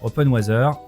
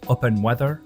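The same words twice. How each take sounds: First: It is said with a French accent. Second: It is said with an American accent.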